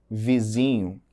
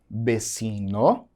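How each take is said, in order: First: Said in the usual way. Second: "vecino" in Spanish, v as b, s sound for c; careful Spanish "vecino"; Spanish word demo. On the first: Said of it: "qual palavra tá em português". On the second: Shown as a demonstration. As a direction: set "vecino" apart with a lifted ending. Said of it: "qual palavra tá em espanhol".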